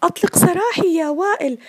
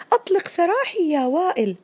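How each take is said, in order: First: High, loud shout stressing سراحي; loud cry. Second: High cry. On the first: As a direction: cry out as the trapped computer. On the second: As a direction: plead once more, pitch up. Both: Acted. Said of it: "لصاح بأعلى صوته".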